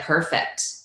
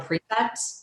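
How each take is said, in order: First: The first syllable sounds like 'per'. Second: The first syllable sounds like 'pre'. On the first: The speaker calls it wrong. "I think I was calling it a perfect" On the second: The speaker calls it right. "instead of a prefect"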